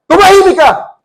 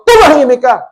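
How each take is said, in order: First: High, loud rebuke; commanding shout. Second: Louder command to the storm, less raised; a steady rebuke; firm rebuke. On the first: Jesus driving out a demon, loud commanding shout. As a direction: cast the demon out with force. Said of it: "sabi niya". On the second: Jesus calming the storm, firm rebuke. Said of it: "Ganon din ang ginamit ni Jesus". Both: A narrator's reading.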